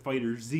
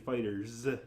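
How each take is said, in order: First: The Z is said as a separate letter. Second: The Z blends in as an s ending. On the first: The speaker calls it wrong. "you don't pronounce it Fighter Z" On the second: The speaker calls it right. "you say Fighters"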